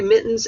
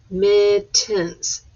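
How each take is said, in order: First: Said in the usual way. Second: "Mittens" split into mit, tens; syllable by syllable. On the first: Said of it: "You do mittens". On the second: Shown as a demonstration. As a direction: count out "Mittens" with a gap between syllables. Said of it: "count it out".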